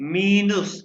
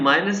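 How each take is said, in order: First: The first vowel sounds like 'ee'. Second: The first vowel sounds like 'eye'. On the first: This is the German pronunciation. "लेकिन प्रोनाउंस करेंगे मीनस" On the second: This is the English pronunciation. "English में माइनस है"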